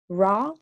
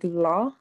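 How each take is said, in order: First: The consonant sounds like an English R. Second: The consonant sounds like an English L. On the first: The speaker calls it wrong. "ra is not really it" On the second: The speaker calls it right. "It's more like la"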